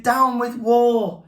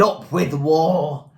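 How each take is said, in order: First: Chanted, high, slow hooting protest; chanted, hoot it long and high. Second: Slow, drawn-out rallying chant; storybook shout, stretching the words; shouted slogan. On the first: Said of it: "And he hooted". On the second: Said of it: "And they shouted". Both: A narrator's reading.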